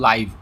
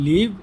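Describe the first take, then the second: First: The vowel is long, as in 'five'. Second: The vowel is short, as in 'give'. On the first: It means happening in real time at an event. "আর একটা হলো লাইভ" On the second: It means to reside somewhere. "একটা হলো লিভ"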